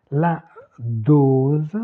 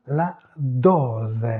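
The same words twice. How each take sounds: First: Dose with a long closed o, the French way. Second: Dose said the Italian way, with open o and final e sounded. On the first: Teacher giving the French word, closed o in dose. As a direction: round the o in dose tight and closed. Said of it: "Fermé en français". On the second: Teacher giving the Italian word, open o in dose. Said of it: "c'est ouvert". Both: Shown as a demonstration.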